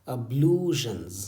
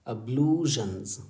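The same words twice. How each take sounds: The two takes are said the same way.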